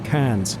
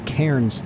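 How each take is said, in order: First: Cairns is said with the Australian pronunciation. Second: Cairns is said with a non-Australian pronunciation. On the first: The speaker calls it right. "The proper Aussie pronunciation is Cairns" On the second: The speaker calls it wrong. "which I kept calling Cairns, but he corrected me"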